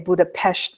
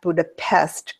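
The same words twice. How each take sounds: First: The name is said the local Hungarian way. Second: The name is said the usual English way. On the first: This follows how people there say the name. "because that's how they say it over there" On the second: This follows the common outside pronunciation. "not Budapest"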